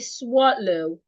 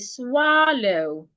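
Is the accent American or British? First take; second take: British; American. First: It is said with a British accent. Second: It is said with an American accent. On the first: "The British will say swallow" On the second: "Americans will say swallow"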